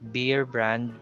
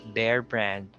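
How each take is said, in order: First: The first word sounds like beer. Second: The first word sounds like bear. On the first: The speaker calls it wrong. "it's not beer brand" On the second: The speaker calls it right. "it's Bear brand"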